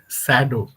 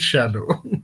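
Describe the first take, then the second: First: The name begins with a plain s sound. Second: The name begins with an sh sound. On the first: The speaker calls it wrong. "I said so did Sado" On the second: The speaker calls it right. "I should have said so did Shadow"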